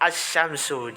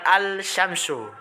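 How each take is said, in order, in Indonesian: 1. Bunyi l melebur menjadi bunyi sh yang ganda. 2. Bunyi l jelas terdengar sebelum sh. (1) "jadi bukan al-syamsu" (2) "salah ya"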